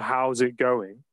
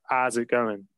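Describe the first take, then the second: First: It is said in a standard English accent. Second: It is said in a Nottingham accent, dropping sounds.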